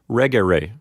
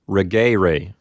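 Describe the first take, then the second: First: The stress is on the first syllable. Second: The stress is on the second syllable. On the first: The E is short, as in a third conjugation verb. "the accent will be on the first syllable" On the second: The E is long, as in a second conjugation verb. "we would put the accent on that syllable"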